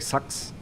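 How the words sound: The vowel is centralised, sounding like 'sucks'. "They say sucks"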